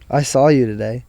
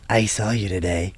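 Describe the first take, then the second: First: It is read in an ordinary speaking voice. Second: It is read in a creepy put-on voice.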